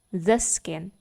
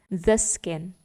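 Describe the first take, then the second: No difference in how they are said.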